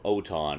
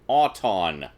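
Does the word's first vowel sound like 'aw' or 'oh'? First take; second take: oh; aw. First: The first vowel sounds like 'oh'. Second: The first vowel sounds like 'aw'. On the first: The speaker calls it wrong. "as I have called it for many years, and many of you have corrected me on" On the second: The speaker calls it right. "pronounce it correctly. Auton, like automobile or automatic"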